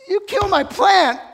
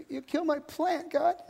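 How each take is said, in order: First: High, loud shouted accusation on "plant"; shouted, high-pitched fury; furious shout. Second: High, pouting whine at normal volume on "you kill my plant"; high-pitched childish whimper; sulky little kid. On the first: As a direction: yell "you kill my plant" at God, much higher and louder. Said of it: "watch Jonah's response". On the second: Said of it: "like a little kid digging at the dirt". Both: Acted.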